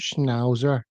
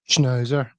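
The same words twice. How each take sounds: First: The vowel is opened up, not Belfast style. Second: The vowel is said in a Belfast way. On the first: The speaker has lost his home accent. The speaker calls it wrong. "listen to him" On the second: This is how people from Belfast say it. The speaker calls it right. "you have to say schnauzer if you're from Belfast"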